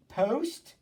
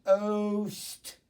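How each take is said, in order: First: "Post" said whole with a clear P, pitched high; blended syllable. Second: "Post" without its P, as a stretched "ohhh-sss-t"; sounding out. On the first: Teacher tapping out poster, sounds now joined into one syllable. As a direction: blend "Post" into one short, higher word. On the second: Teacher tapping out poster for the class, sounds stretched apart. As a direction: draw out each sound of "Post" after a silent or clipped P. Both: Shown as a demonstration. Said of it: "tap out poster".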